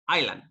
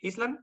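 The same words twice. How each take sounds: First: The s sound is left out of the word. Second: The s sound is pronounced in the word. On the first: The speaker calls it right. "it's island. Okay, we omit the s" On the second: The speaker calls it wrong. "we don't say island"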